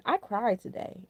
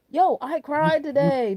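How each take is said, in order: First: Said in the usual way. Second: Drawn-out emphatic Yo, I cried today with a falling Yo; slow and emphatic, marvelling at it; amazed, slow declaration; emphatic repeat, slow. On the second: Real, not acted.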